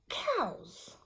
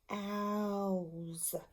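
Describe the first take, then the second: First: The word is said quickly. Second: The word is stretched out slowly.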